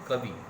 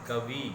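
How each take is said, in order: First: The final vowel is a short i. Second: The final vowel is a long ii. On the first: The speaker calls it right. "हर्ष ई का सही शुभ रूप है" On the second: The speaker calls it wrong. "दीर्घ ई लगा देते हैं, गलत है"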